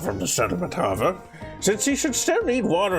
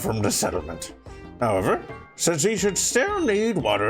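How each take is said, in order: First: 'However' closes the first clause before a break. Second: 'However' starts the next clause after a break. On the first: The speaker calls it right. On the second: The speaker calls it wrong.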